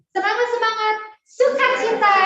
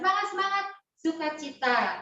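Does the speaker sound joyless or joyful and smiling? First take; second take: joyful; joyless. First: It is said joyfully, with an audible smile. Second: It is said flatly, without joy or smiling.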